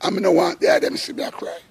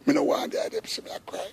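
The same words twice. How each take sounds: First: High, fast, tearful voice straining not to break; holding back tears. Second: Whispered, much softer, breath catching on tears; choked whisper. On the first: Telling his brethren he hides his tears, voice high and tearful. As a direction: push the words out fast through rising tears. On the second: Hiding his tears from people, a choked whisper. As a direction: let the voice collapse to a tearful whisper. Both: Real, not acted. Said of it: "me start cry".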